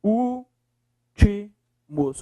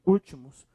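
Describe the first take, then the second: First: "Últimos" split very slowly, Ú... TI... MOS; syllable by syllable. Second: Said in the usual way. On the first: Shown as a demonstration. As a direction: pause after each syllable of "Últimos". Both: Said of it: "Separe lá".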